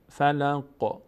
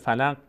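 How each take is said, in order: First: The final q has a slight vibrating echo. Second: The final q stops dead with no echo. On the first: The speaker calls it right. "مقداری میلرزونیمش در مخرج" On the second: The speaker calls it wrong. "اگر حرکت ندیم ساکن محض باشه میشه فلق"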